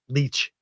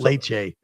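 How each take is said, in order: First: It is said like English 'leech', one syllable. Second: It is said like Spanish 'leche', two syllables. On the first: The speaker calls it right. "It's leech" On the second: The speaker calls it wrong. "it's not leche"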